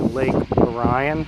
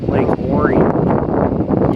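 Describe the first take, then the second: First: Orion is said the speaker's own non-Michigan way. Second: Orion is said the Michigan local way.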